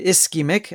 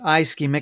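First: The first syllable does not sound like 'eye'. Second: The first syllable sounds like 'eye'. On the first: The speaker calls it right. "I thank you for correcting me on the pronunciation" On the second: The speaker calls it wrong. "I was pronouncing it as ischemic, I guess, for the eyes"

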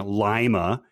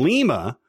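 First: It is said like the Ohio city name. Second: It is said like the NATO alphabet letter. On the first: The speaker calls it wrong. "he pronounces it the wrong way, saying Lima, as in the Ohioan city" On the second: The speaker calls it right. "which is the correct pronunciation"

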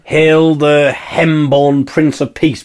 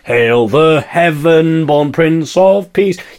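First: Heaven is squeezed into one syllable, 'hem'. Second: Heaven is said in full with two syllables. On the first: It is squeezed to fit the rhyme. The speaker calls it wrong. "you'd say hem" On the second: It keeps the word whole. The speaker calls it right. "rather than"

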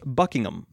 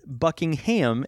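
First: The final syllable is reduced to a weak 'um'. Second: The final syllable is said as a full 'ham'. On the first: The speaker calls it right. "it's Buckingham" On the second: The speaker calls it wrong. "it's not Buckingham"

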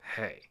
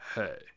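First: The greeting sounds awkward and flat. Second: The greeting sounds smooth and cool. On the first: The speaker calls it wrong. "Miles does not make it sound cool" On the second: The speaker calls it right. "My jaw is falling open when he says it"

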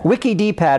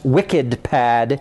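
First: The name is said as wiki-D-pad. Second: The name is said as wicked-pad. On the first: The speaker calls it wrong. "saying it wrong" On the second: The speaker calls it right. "which is actually pronounced WickedPad"

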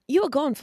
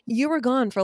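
First: It is said in a put-on English accent. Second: It is said in her normal American accent.

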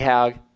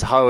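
First: The surname is said differently from 'ho'. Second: The surname is said like the word 'ho'. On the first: This is how the name's owner says it. The speaker calls it right. "but QV Haugh" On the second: This is how a reader in Australia would guess it. The speaker calls it wrong. "You would read it as Ho if you're in Oz"

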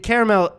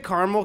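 First: The middle vowel is sounded, giving three syllables. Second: The middle vowel is dropped, giving two syllables. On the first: This follows the spelling. The speaker calls it right. "That's correct. There's another A there" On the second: This is a regional habit. The speaker calls it wrong. "I say caramel because it's a regional thing"

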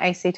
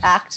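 First: It is spelled out as three letters. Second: It is said as one word, act. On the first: The speaker calls it wrong. "not ACT" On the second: The speaker calls it right. "it's ACT"

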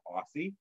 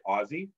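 First: The middle consonant is an s sound. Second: The middle consonant is a z sound. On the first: The speaker calls it wrong. "It's not Aussie" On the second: The speaker calls it right. "you have to say Aussie. ... And with a Z"

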